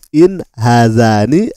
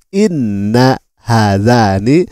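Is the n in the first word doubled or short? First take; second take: short; doubled. First: The first word is a short in, one n. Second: The first word is inna, with a doubled n. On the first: The speaker calls it right. "Seharusnya dibaca qalu in hadzani lasahirani" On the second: The speaker calls it wrong. "malah Anda mengatakan inna hadzani"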